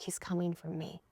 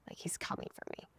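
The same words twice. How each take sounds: First: Hushed inner voice, half-voiced; private thought. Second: Full whisper, no voice at all; private thought. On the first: Woman in the car thinking of him, hushed. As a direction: say it softly to yourself. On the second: Retold or imitated. Woman in the car thinking of him, whispered. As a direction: whisper it secretly to yourself. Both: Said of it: "And in my mind".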